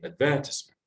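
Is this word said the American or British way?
British. It is said in a British pronunciation. "the speaker might be British, might say"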